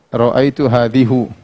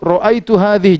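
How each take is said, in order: First: The last word ends in a u vowel. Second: The last word ends in an i vowel. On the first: The speaker calls it wrong. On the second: The speaker calls it right.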